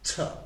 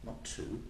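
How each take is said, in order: First: The vowel in to is reduced to schwa. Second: The vowel in to is full and long. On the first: The speaker calls it right. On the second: The speaker calls it wrong.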